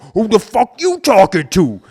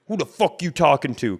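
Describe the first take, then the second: First: It is said more aggressively and forcefully. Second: It is said in a normal, calmer way.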